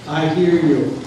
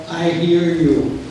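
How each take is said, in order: First: Said in the usual way. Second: Slow, soothing "I hear you", stretching "hear"; a slow "I hear you" to someone upset; slow empathetic "I hear you". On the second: Shown as a demonstration. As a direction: say "I hear you" slowly, as if truly listening. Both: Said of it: "give a message of".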